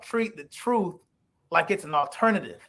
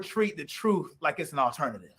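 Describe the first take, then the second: First: It is spoken at a deliberately slower pace. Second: It is spoken at a normal, quicker pace.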